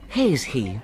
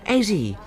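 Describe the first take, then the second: First: The h sounds are pronounced in both words. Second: The h sounds are dropped from both words. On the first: The speaker calls it right. "I should say has he" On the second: The speaker calls it wrong. "I've got a lot of difficulty with them"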